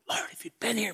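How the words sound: The voice sounds angry and accusing. The speaker blames the listener for the loss. "Was it the angry Martha?"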